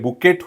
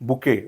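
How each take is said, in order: First: The word ends with a t sound. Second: The word ends without a t sound. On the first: The speaker calls it wrong. "बुकेट होत नाही" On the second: The speaker calls it right. "या ठिकाणी पण टीचा उच्चार होत नाही"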